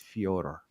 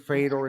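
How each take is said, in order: First: The first syllable has a 'yo' glide sound. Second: The first syllable is a plain 'Fe' sound. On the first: This is how the name's owner says it. "you said it's Fyodor" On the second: This is the casual everyday way to say it. "I may say like in conversation Fedor"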